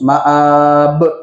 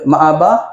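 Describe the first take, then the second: First: The word ends abruptly on a consonant. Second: The word ends in a vowel sound. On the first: The speaker calls it right. "Kena matikan terus" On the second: The speaker calls it wrong. "Boleh kita baca ma'aba? Tak boleh"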